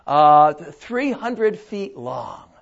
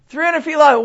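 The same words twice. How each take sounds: First: Very slow, lower, matter-of-fact "three hundred feet long"; God stating the size, unhurried; God, slow and calm. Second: Higher echo of "three hundred feet long" in disbelief; Noah, incredulous. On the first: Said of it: "So God says to Noah". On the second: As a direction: Noah repeating it back, stunned. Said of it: "And Noah says to God". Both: Acted.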